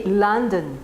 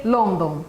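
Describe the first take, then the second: First: "London" with a weak schwa in the second syllable; model pronunciation. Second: "London" with both o vowels said fully; Brazilian full vowels. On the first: Shown as a demonstration. Teacher modelling London for students to repeat. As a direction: say "London" clearly with a reduced second o. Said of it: "Repeat after me". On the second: Retold or imitated. Teacher imitating students mispronouncing London. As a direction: say "London" with open full o sounds. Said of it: "how many students say London".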